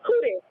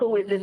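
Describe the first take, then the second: First: It is asked with a sassy attitude. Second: It is asked in a plain, neutral tone.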